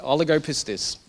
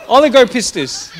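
First: Said in the usual way. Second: Loud, higher, hammed-up Italian accent; terrible Italian accent. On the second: Preacher joking that it sounds like Italian food, hammed-up Italian accent. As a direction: ham it up in a bad Italian accent. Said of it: "That was a terrible accent".

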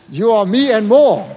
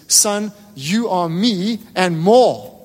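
First: Louder, slow, proud declaration; emphatic father. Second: Very slow, gentle father's promise; tender fatherly line. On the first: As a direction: repeat it louder, driving the promise home. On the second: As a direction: let each word land slowly, like a father reassuring his son. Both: Retold or imitated. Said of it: "his dad just looks at him and says".

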